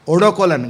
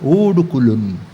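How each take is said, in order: First: It is said with a rustic Marathi accent. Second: It is said with a French accent.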